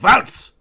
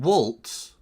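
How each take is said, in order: First: The name is said with a German pronunciation. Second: The name is said with an English pronunciation.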